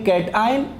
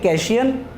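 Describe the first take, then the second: First: It is split into 'cat' and 'eye-on' parts. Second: The middle sounds blend into a single 'shun' syllable. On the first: The speaker calls it right. "इनकी दुरुस्त pronunciation ये है" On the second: The speaker calls it wrong. "अक्सर बच्चे जब पहली पहली बार इसको पढ़ते हैं तो वो इसी तरीके से इसको प्रोनाउंस करते हैं"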